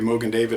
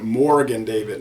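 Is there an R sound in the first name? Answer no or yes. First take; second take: no; yes. First: The first word is said without an R sound. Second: The first word is said with an R sound. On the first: The speaker calls it right. "most people say Mogen David" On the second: The speaker calls it wrong. "some people pronounce it Morgan David. No R"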